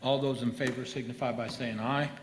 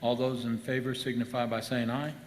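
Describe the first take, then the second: Both takes have the same delivery.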